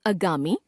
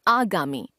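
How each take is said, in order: First: आगामी opening on a short "a"; mispronounced first vowel. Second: Said in the usual way. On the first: Shown as a demonstration. Teacher showing a common error, आगामी with short first vowel. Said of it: "अशुद्ध". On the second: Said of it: "शुद्ध".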